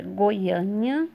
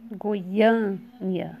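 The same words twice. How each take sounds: First: Said in the usual way. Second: "Goiânia" split up, long stress on ÂN; stressed syllable. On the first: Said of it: "Segunda palavra". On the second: Shown as a demonstration. Teacher sounding out the word for students, "Goiânia" with stretched ÂN. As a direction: draw out the ÂN in "Goiânia", then let it fall. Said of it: "sílaba tônica A".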